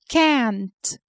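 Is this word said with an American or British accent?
American. It is said with an American accent. "the Americans a"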